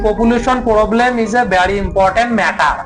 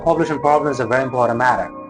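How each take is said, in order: First: It is spoken in a Bangladeshi English accent. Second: It is spoken in an American English accent. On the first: The speaker calls it wrong. "আমরা বাংলাদেশে বলি" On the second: The speaker calls it right. "American"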